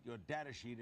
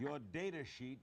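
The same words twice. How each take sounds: First: "data" starting like "dad"; "data" as DAT-uh. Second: "data" rhyming with "later"; "data" as DAY-tuh. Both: Real, not acted. Says the word both ways.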